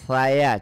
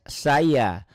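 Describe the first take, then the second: First: It starts with a lisped, tongue-tip th sound. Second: It starts with a plain hissing s sound. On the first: "Cedal ya. Kayak orang manja" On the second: "Ngomong saya pakai S"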